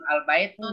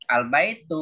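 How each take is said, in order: First: The word ends with an added n sound. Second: The word ends on a vowel without n. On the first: The speaker calls it wrong. "Jangan al-baitun ya" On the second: The speaker calls it right. "Al-baitu ya"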